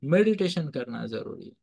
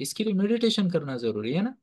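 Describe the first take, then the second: First: meditation stressed, falling firmly at the end; confirming statement. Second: meditation stressed, rising at the end to invite an answer; prompting question. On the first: Teacher confirming the answer to the class, firm falling tune. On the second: Teacher prompting the class to say the word, rising question. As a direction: ask it as a cue for the class to finish, ending in a rise on meditation. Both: Shown as a demonstration. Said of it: "What's the word?".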